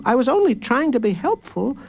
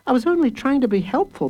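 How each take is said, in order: First: Protesting again. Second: Protesting. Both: A narrator's reading. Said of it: "protested Jacob Tutu".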